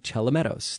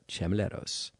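First: The L sound comes before the M sound. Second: The M sound comes before the L sound. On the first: The speaker calls it right. "it's actually Chelomedos" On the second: The speaker calls it wrong. "I mispronounced his name by transposing the L and the M"

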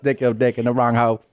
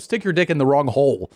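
First: The word hole drops the L, sounding like hoe. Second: The word hole ends with a clear L sound. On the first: "she put a little swag on hole" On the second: "She doesn't go"

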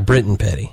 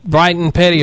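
First: The first syllable has a short 'i' vowel. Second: The first syllable has a long 'eye' vowel. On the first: "or Britton Petty?" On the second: "Is the guy's name Brighton Petty"

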